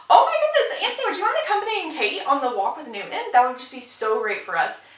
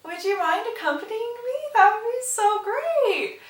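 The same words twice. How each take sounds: First: High gushing request, settling as it goes; mock gushing. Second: Annoyed. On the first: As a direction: burst out like a delighted matchmaking mother. Mary gushing matchmaking request. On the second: Retold or imitated. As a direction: stretch the polite request with mock sweetness, clearly annoyed. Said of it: "annoyed as can be".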